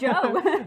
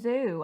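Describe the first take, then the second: First: The name begins with a j sound. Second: The name begins with a buzzing z sound. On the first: The speaker calls it right. "no, it's Joe" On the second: The speaker calls it wrong. "He kept calling him Zoo"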